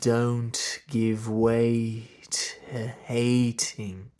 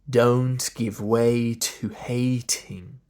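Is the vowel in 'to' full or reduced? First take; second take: reduced; full. First: The word 'to' has a weak schwa vowel. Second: The word 'to' has a short full oo vowel. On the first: "I did a schwa there on the t, because it's in the unstressed position" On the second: "and do the oo. Just wouldn't be very long"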